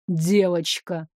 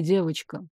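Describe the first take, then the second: First: Девочка low, slow and heavy; thundering voice. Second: Девочка dropped low and much softer; low soft dragon voice. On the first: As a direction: drag out девочка low and menacing. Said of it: "прогрохотал голос". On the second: Dragon king summons her. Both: Acted.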